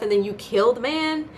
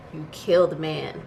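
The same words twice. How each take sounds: First: "man?" rising high; outraged question. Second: "kill" falling, said slowly; flat, slow verdict. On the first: Vlogger asking the writers in outrage. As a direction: demand it of the writers in disbelief. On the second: Vlogger repeating the verdict, slow and flat. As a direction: let it land, slow and flat. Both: Real, not acted.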